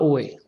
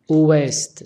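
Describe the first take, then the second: First: The word ends without any t sound. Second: The word ends with a clear t sound. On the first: The speaker calls it wrong. "C'est pas oué" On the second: The speaker calls it right. "On dit ouest"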